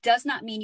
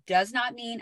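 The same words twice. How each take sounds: First: It is said noticeably louder. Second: It is said at normal volume.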